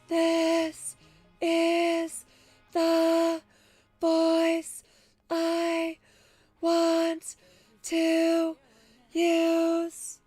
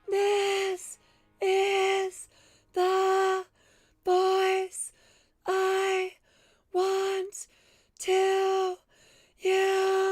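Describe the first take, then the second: First: It is said at a middle pitch. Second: It is said at a high pitch.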